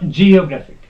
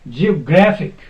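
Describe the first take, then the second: First: The stress is not on the third syllable. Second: The stress is on the third syllable. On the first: The speaker calls it wrong. "Not geographic. No, that is wrong" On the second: The speaker calls it right. "the stress will be put on second from end. And it is gra"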